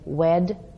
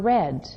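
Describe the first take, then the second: First: The word begins with a W sound. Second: The word begins with an R sound. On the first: The speaker calls it wrong. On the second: The speaker calls it right.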